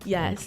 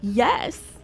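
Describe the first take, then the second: First: It is said in a plain, flat tone. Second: It is said with gleeful excitement.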